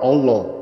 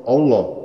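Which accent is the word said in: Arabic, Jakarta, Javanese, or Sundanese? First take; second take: Javanese; Javanese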